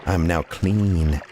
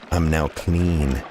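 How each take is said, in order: Both takes have the same delivery.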